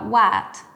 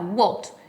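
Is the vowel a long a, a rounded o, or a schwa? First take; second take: long a; rounded o. First: The vowel is a lengthened open A sound. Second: The vowel is a round, full O sound. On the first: "o por una A más alargada" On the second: "En británico va a sonar la O bien redonda y pronunciada"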